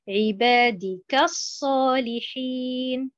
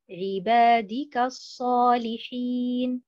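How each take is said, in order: First: The final ka syllable is stressed. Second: The final ka syllable is not stressed. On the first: The ka becomes a word meaning 'like' before the next word. The speaker calls it wrong. "Si je mets l'accentuation sur harakat al-kaf" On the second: The ka is a pronoun attached to the first word. The speaker calls it right. "un pronom affixe rattaché au mot ibadi"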